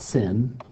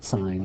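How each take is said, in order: First: The word is said like 'sin'. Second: The word is said like 'sign'. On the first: The speaker calls it wrong. "you don't pronounce it sin" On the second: The speaker calls it right. "you pronounce it sine"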